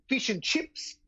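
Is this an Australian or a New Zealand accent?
Australian. It is said in an Australian accent.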